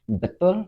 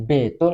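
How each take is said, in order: First: It is said in standard Indonesian pronunciation. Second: It is said with the speaker's regional accent. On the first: This is how the word should be said. "seharusnya betul" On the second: This is how people from the region say it. "menjadi betul"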